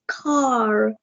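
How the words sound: The word is said in an Indian accent. "in ours it's car"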